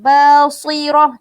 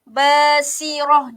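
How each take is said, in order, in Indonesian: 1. Bunyi s itu tebal dan berat. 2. Bunyi s itu tipis dan ringan. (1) "ada sesetengah yang baca tebal"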